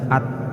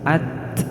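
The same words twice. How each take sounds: First: The t ends with no puff of air. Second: The t ends with a small puff of air. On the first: The speaker calls it wrong. "tidak serta-merta dibaca at" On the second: The speaker calls it right. "harus ada letupan sedikit"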